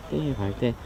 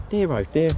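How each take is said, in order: First: Softer and lower, trailing off; quieter, lower repeat. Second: Said in the usual way. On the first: Real, not acted. Left alone after Reggie leaves, softer and lower. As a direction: let it fall away under the breath.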